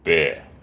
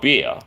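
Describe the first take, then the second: First: The vowel sounds close to the vowel in 'bear'. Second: The vowel sounds like the vowel in 'ear'. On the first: The speaker calls it right. "it almost sounds like bear, but it's not bear, it's beer" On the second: The speaker calls it wrong. "it's not beer"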